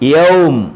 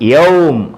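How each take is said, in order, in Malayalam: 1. ഈ വാക്ക് വെറും അവസാന m-ൽ നിൽക്കുന്നു. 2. ഈ വാക്ക് വെറും അവസാന m-ൽ നിൽക്കുന്നു.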